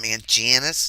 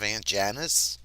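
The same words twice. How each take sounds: First: The phrase is said in an affected foreign-sounding accent. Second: The phrase is said in a plain local accent. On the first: This is how a relative who picked up another accent says it. "she'll call my mom Aunt Janice" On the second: This is the usual way people there say it. "instead of Aunt Janice"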